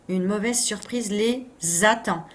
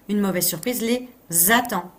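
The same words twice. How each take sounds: Both takes have the same delivery.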